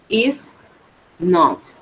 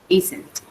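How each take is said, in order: First: It is said as two separate full words. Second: It is said as one contracted word.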